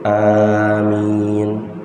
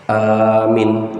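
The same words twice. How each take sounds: First: Both vowels are held for the same short length. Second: The first vowel is long, the second short. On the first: O Lord, answer our prayer. The speaker calls it right. "amin dua harokat dua harokat" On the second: O God, make us safe. The speaker calls it wrong. "A-nya panjang, Mi-nya pendek"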